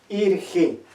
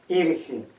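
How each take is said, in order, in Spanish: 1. Las vocales son cerradas, suenan como 'i'. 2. Las vocales son cerradas, suenan como 'i'.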